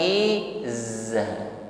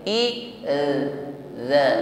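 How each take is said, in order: First: The middle consonant is a hissing z sound. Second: The middle consonant has no hiss, tongue between teeth. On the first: The speaker calls it wrong. "Bukan izza" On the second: The speaker calls it right. "tidak ada desis ketika mengucapkannya"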